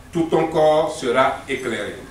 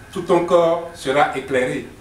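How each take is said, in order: No difference in how they are said.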